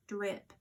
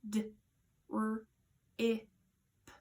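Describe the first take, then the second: First: Said in the usual way. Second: DRIP broken into separate sounds, d, r, i, p; segmented phonemes d... r... i... p; sounding out. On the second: Shown as a demonstration. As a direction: say each sound of drip alone, with a gap between. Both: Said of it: "Let's sound that out together".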